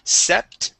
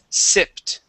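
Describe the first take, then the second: First: The vowel is a short E sound. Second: The vowel is a short I sound. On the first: The speaker calls it wrong. "you had used a short E sound instead of short I" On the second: The speaker calls it right. "it is sipped"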